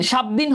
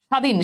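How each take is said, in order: First: "স্বাধীন" as shab-dhin, with the silent ব sounded; spelling pronunciation. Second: Said in the usual way. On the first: Shown as a demonstration. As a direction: put an audible b inside "স্বাধীন". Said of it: "স্বাধীন হওয়ার কথা". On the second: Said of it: "বয়ের কিন্তু কোনো উচ্চারণ নাই".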